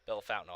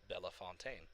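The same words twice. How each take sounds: First: It is pronounced with an American pronunciation. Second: It is pronounced with a French pronunciation. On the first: The speaker calls it wrong. "they have a Be- Bellefontaine, Ohio" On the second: The speaker calls it right. "It's like no, it's Bellefontaine"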